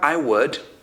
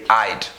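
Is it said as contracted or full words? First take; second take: full; contracted. First: Both words are said in full. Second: The words are shortened into one syllable. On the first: "So you have I would" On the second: "when you make it short, when you contract it"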